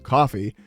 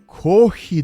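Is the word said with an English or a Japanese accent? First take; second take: English; Japanese. First: It is said with a plain English pronunciation. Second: It is said with a heavy Japanese katakana accent. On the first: The speaker calls it wrong. "instead of doing it in English with coffee" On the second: The speaker calls it right. "if you use the heavily accented thing, it actually does help them understand"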